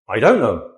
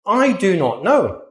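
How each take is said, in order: First: Don't squeezed into one quick syllable; contracted. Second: Said in the usual way. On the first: Shown as a demonstration. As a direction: run I don't know together, don't short.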